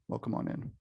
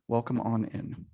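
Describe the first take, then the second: First: Breathy whispered welcome; whispering. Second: Said in the usual way. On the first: Shown as a demonstration. Greeting people joining the call.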